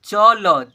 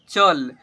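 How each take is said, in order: First: "चल" split into "च, ल", loud; each letter of "चल" drawn out with its own vowel; spelled letter by letter. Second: "चल" as one loud syllable; blended into one word. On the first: Teacher drilling word reading with children, spelled out. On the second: Teacher showing children the joined word, blended. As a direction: join "चल" up, closing on ल. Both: Shown as a demonstration. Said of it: "ऐसे पढ़ेंगे".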